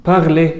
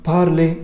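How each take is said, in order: Both takes have the same delivery.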